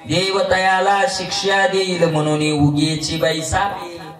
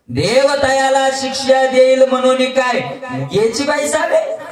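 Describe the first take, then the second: First: It is said as a calm statement. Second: It is said as a challenging question.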